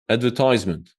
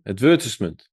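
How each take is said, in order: First: It is said with an American accent. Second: It is said with a British accent. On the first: "Let me just search for the U S" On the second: "let's check the U K spelling, ... pronunciation"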